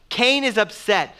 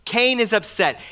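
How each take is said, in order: Both takes have the same delivery.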